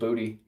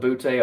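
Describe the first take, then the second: First: The name ends with an 'ee' sound. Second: The name ends with an 'ay' sound. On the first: This is the speaker's own joking version. "I call him Booty" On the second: This is how people in Louisiana say it. "people in Louisiana may call it Boutte"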